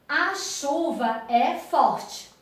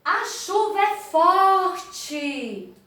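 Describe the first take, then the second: First: Said in the usual way. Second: Higher, slow "A chuva é forte" with "é" leaned on; exaggerated exclamation. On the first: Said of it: "Aqui eu leio assim". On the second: Shown as a demonstration. Teacher reading the exclamation-mark sentence, raised and slow. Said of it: "falou assim, de forma exacerbada".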